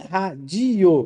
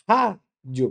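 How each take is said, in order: First: The stress is on a later syllable. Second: The stress is on the first syllable. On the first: The speaker calls it wrong. "não é radio" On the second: The speaker calls it right. "Eu tenho uma paroxítona terminada em ditongo"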